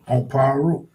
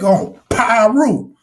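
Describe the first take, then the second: First: Pyru is said flatly, with little energy. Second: Pyru is said forcefully, with strong emphasis. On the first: The speaker sounds uninvolved in the claim. The speaker calls it wrong. "He was so plain with that and so like not into it" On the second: The speaker proudly asserts the affiliation. The speaker calls it right. "You gotta really hit that shit up"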